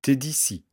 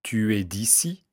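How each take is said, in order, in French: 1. La voyelle de « tu » est supprimée et élidée. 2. La voyelle de « tu » est entièrement prononcée. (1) "on dira « t'es d'ici »" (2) "dans la phrase « tu es d'ici »"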